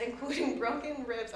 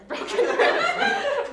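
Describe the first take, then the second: First: Said in the usual way. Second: Much higher and slow, breaking into laughter; can't hold back the giggle; laughing. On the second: Real, not acted. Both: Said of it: "I'm sorry for laughing".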